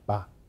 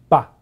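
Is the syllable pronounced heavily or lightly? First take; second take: lightly; heavily. First: The syllable is pronounced lightly. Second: The syllable is pronounced heavily. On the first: This is the colloquial reading. "咱的一个母语音较轻" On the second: This is the literary reading. "读册音的音较重"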